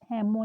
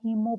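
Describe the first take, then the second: First: The first vowel is a short 'e' sound. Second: The first vowel is a long 'ee' sound. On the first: The speaker calls it wrong. "हेमो नहीं पढ़ रहे" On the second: The speaker calls it right. "हीमो पढ़ रहे हैं"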